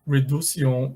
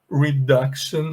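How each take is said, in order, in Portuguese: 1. O c é pronunciado com som de s. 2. O c é pronunciado com som de k. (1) "Tenta pronunciar esse C com som de C mesmo" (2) "We say com som de K"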